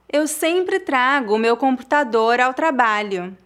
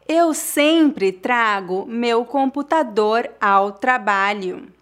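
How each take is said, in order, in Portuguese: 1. A frase é falada em velocidade natural. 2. A frase é falada devagar e com cuidado. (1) "outra vez mais naturalmente" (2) "uma vez mais devagar"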